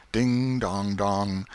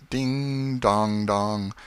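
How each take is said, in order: Both takes have the same delivery.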